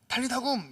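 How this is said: It is said sharply and forcefully. An impatient mother is scolding a child awake. "이렇게 한다거나 야 빨리 안 일어나냐 라는 이런 앙칼지고 굉장히 카리스마 있는 목소리"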